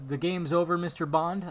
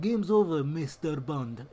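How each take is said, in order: First: Said in the usual way. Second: Mock villain, slowing on "Mister Bond"; hammed-up accented Bond villain. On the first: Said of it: "I wanted him to say something like that". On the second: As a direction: deliver it like a foreign movie villain. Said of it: "he sounded like a Bond villain".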